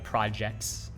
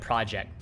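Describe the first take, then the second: First: The final T sound is clearly heard. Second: The final T sound is left off. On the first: "You only pronounce the T like" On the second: "I don't say the T"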